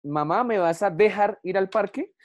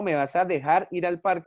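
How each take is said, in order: First: Put-on child's question with "dejar" stressed on DE; wrong stress on dejar. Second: "dejar" stressed normally on final JAR. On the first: Teacher voicing a child asking mamá, "dejar" wrongly stressed on DE. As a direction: ask it, hitting DE in "dejar" instead of JAR. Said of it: "Yo no digo dejar". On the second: Teacher correcting the child's question, "dejar" stressed on JAR. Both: Shown as a demonstration.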